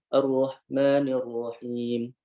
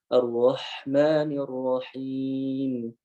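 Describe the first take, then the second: First: The h sound is weakly breathy and faint. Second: The h sound is strongly breathy and prominent. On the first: The speaker calls it wrong. "Tapi kita bacanya" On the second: The speaker calls it right.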